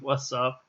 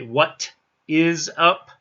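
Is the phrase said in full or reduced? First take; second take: reduced; full. First: The words are run together and the T is dropped. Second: Every word is said in full, with a clear T.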